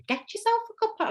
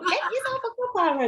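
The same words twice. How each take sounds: First: Much higher, quick attempt at a Scottish accent. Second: Put-on laughing, much higher try at a Scottish accent. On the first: Quoting the vlogger Emma's catchphrase in a Scottish accent. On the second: Trying the vlogger's catchphrase again in a laughing Scottish accent. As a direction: have another go at the Scottish line. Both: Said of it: "I can't do a Scottish accent".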